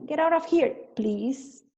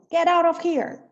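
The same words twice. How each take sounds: First: Still rude, with please. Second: Loud, sharp and rude; angry shout. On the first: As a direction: command it, then tack on please. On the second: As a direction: bark it out furiously. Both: Shown as a demonstration. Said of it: "põe um please depois".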